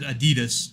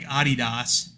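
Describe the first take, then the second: First: It is said with an American pronunciation. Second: It is said with a German pronunciation. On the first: "We pronounce it Adidas here" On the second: "which is how the Germans pronounce it"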